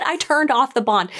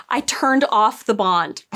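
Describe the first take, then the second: First: "turned" lifted a little higher than the rest; quoted again, a bit higher. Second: "turned" leaned on, slow and flat; deadpan quote. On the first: Reviewer repeating her exact words, stressing "turned" slightly higher. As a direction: say "I turned off the bond." lightly raised, stressing "turned". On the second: Reviewer quoting the Aes Sedai's line slowly, stressing "turned". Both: Retold or imitated. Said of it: "She said".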